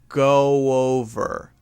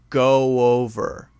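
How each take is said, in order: First: A soft W sound joins the two words. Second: A soft W sound joins the two words.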